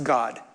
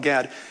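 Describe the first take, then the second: First: The name has the vowel of 'nod'. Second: The name has the vowel of 'bad'. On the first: This is the original form of the name. The speaker calls it right. "his name is actually pronounced God" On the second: This is the familiar but incorrect form. The speaker calls it wrong. "I don't pronounce the name correctly"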